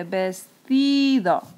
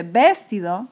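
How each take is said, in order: First: "vestido" slowly, with a long stressed TI; acento en TI. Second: "vestido" wrongly stressed on the first syllable, VES-tido; acento equivocado en VES. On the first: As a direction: stretch the middle syllable, ves-TIII-do. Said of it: "se dice vestido". ("vestido" lento, con la TI fuerte y alargada) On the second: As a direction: punch VES in "vestido", rest unstressed. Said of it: "La palabra no se dice vestido". ("vestido" como esdrújula, VÉS-tido) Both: Shown as a demonstration.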